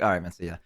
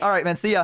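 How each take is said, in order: First: It is said with low, dropped energy. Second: It is said with lively, higher energy.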